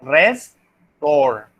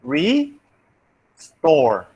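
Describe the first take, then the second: First: "restore" split as res, pause, tore; Spanish syllable split. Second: "Restore" split as re, pause, store; native syllable split. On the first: Teacher shows how Spanish speakers divide it, syllable split. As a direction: say "restore" in two slow pieces, RES then TORE. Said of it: "Not like us, Spanish speakers". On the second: Teacher shows how natives divide the word, syllable split. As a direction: say "Restore" in two slow pieces, RE then STORE. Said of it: "they will separate like this". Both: Shown as a demonstration.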